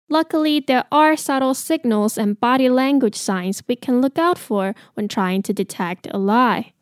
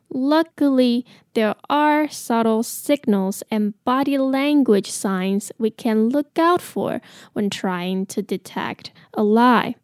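First: It is said at a normal pace. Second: It is said a little more slowly.

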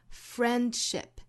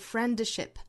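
First: The d sound in the middle is dropped. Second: The d sound in the middle is pronounced. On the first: The speaker calls it right. "而是读成 friendship" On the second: The speaker calls it wrong. "注意在单词之中的这个 d 的音不发出来，不是 friendship"

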